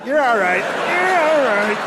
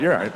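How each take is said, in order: First: Put-on coaxing toddler voice. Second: Said in the usual way. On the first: Guy comforting his girlfriend as if she were a toddler, high sing-song coo. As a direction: coo at her like a fallen toddler. Soothing partner like fallen toddler.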